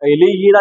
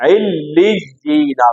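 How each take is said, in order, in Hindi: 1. व्यंजन एक हैं, दबाए नहीं गए। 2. दोनों चिह्नित व्यंजन दोहरे हैं और दबाकर बोले गए हैं। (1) "तो इल्लीना नहीं होगा" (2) "दोनों के ऊपर तशदीद है"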